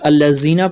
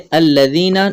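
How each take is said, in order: First: The middle consonant is pronounced hard and harsh. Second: The middle consonant is pronounced soft and gentle. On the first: The speaker calls it wrong. "बाज़ लोग यहाँ पर अल्लज़ीना पढ़ते हैं, सख्ती करते हैं" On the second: The speaker calls it right. "यहाँ जा नहीं है बल्कि लाल है"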